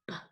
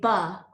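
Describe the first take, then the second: First: The b sound is clipped with no vowel after. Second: The b sound has a vowel added after it. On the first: The speaker calls it right. "we say b" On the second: The speaker calls it wrong. "we don't say ba"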